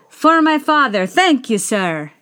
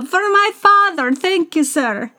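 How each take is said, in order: First: It is said in a plain, unaccented voice. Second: It is said with an Italian accent.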